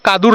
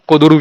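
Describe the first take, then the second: First: It is said as two syllables, Kadur. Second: It is said as three syllables, Kuduru. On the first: This is how the name is written. "Hindi में कादुर लिखा हुआ था" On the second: This is how local people say it. "लोगों ने जो pronounce किया उसे कुदुरु किया है"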